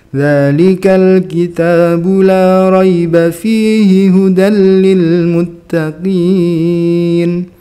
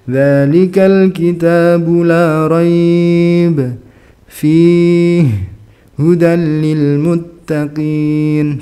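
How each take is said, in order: First: It runs on without stopping between the words. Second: It stops at both possible stopping points. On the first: The speaker calls it right. "nggak berhenti sama sekali, ya nggak apa-apa" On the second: The speaker calls it wrong. "jangan dua-duanya berhenti"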